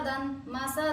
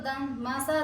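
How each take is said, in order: No difference in how they are said.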